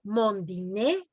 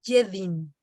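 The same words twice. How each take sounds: First: Slow "mon dîner", ending in a sounded E; final E pronounced. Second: "je dîne" closed on the N sound; no E at the end of "dîne"; silent final E. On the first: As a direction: say "dîner" as "dee-nay", R silent. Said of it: "ahí sí la pronuncias". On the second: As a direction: say "dîne" as "deen", final E unspoken. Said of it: "ya no pronuncias la E". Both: Shown as a demonstration.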